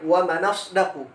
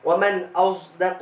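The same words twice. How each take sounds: First: The glottal stop drops, linking n to the vowel. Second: The s sound is tinged toward a z. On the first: "Imam Warsh membaca dengan naqal" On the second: "ishmam sad ini maksudnya ada bunyi zai, seakan-akan zai"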